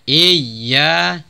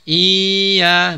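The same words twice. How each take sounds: First: The y sound is doubled and pressed. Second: The first vowel is drawn out long. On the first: The speaker calls it right. "Tapi iya-nya ditekan" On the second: The speaker calls it wrong. "bukan dipanjangkan sehingga iya"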